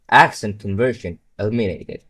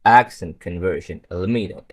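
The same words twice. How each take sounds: First: Mock robotic monotone. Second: Flat robotic mock with lower pitch. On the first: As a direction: say it like a sci-fi robot. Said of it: "sounds like a robot". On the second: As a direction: deliver it like a killer movie robot. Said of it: "It would sound like that". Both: Shown as a demonstration.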